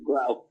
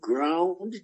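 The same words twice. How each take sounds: First: The word ends without any D sound. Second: The word ends with a clear D sound. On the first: "they left off the D" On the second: "we never said ground, G R O U N D"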